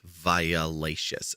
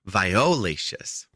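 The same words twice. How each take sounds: First: The second vowel is a weak uh sound. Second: The second vowel is a clear full O. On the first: The speaker calls it wrong. "they always spell it with an uh in the middle" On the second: The speaker calls it right. "I want you to enunciate the O"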